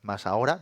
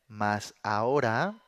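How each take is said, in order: First: Said in the usual way. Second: "mas ahora" said slowly, each word weighed; slow stressed mas ahora. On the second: Shown as a demonstration. Preacher calls the congregation's attention, slowly stressing "mas ahora". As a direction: drag out "mas ahora" so they notice.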